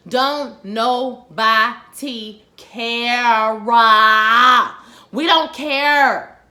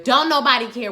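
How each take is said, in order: First: Don't nobody care stretched very slow and loud; drawn out. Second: Said in the usual way. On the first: Shown as a demonstration. Host waving off a character's old grudge, drawn out and exasperated. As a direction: drag out every word of Don't nobody care. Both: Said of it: "We on season six".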